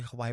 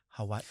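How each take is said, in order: First: It is said smoothly without a glottal break. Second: It has a glottal break before the last syllable. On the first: This is how most people say it. "I always hear people say Hawaii" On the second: This is the proper way to say it. "isn't it Hawaii? ... Okina, that apostrophe"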